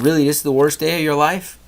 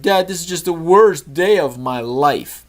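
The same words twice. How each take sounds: First: Said in the usual way. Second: Put-on high, slow, whiny kid's complaint; whiny son. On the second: Son complains to dad in the car, whiny. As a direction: drag it out like a sulking boy.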